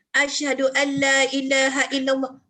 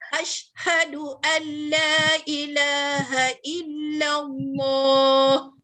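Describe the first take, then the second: First: A vowel is added after the 'sh' sound. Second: The 'sh' sound has no vowel after it. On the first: The speaker calls it wrong. "jangan kita baca" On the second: The speaker calls it right. "Shin tu mati"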